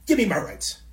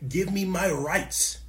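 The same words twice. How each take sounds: First: Louder, punchier protest cry; louder protest demand. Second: Slow, drawn-out protester demand. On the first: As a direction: hit it like a rally chant. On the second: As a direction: stretch it like a chanted sign slogan. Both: Retold or imitated. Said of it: "people holding up signs saying".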